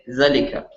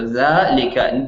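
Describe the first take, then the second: First: The first vowel is short. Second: The first vowel is long. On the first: The speaker calls it wrong. "Don't say" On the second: The speaker calls it right. "should have had an alif after the dhal"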